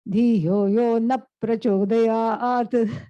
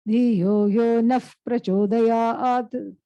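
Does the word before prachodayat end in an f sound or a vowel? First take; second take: vowel; f sound. First: The word before prachodayat ends with a vowel. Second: The word before prachodayat ends with an f sound. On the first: The speaker calls it wrong. "since people don't know this, they say" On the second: The speaker calls it right. "converts that into a, an F sound"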